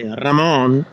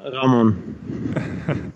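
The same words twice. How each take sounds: First: The name is said the Spanish way. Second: The name is said the Swiss way.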